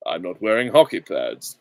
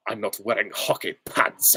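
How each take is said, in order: First: Measured, slightly lower suave actor voice; Roger Moore. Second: Actor impression at normal pitch; Timothy Dalton. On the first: Acted. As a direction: deliver it as a debonair screen spy. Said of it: "and I was Roger Moore". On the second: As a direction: deliver the film line as a serious screen hero. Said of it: "It was Timothy Dalton".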